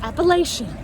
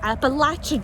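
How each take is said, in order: First: It uses a non-local pronunciation of the name. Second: It uses the local pronunciation of the name. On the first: The speaker calls it wrong. "not Appalachian" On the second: The speaker calls it right. "Just like it's Appalachian Trail"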